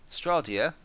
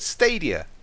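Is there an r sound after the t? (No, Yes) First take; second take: Yes; No. First: An r sound follows the t. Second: No r sound follows the t. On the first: The speaker calls it wrong. "you can't pronounce it" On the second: The speaker calls it right. "Like stadium"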